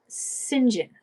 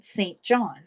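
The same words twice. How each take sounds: First: It is said as two short syllables, Sinjin. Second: It is said as two full words, Saint John. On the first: "but they say Saint John" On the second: "It's spelled Saint John"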